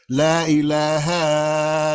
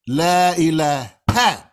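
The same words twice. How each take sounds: First: "La ilaha" drawn out slowly, the final ha stretched long; elongated ha. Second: "La ilaha" slow and loud, final ha cut off short like a hatchet. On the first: Teacher showing the wrong, stretched recitation. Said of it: "you put some elongation on that ha". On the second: Teacher drilling the correct clipped recitation. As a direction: clip the ha of "ilaha" short and sharp. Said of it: "I hit that into your head". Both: Shown as a demonstration.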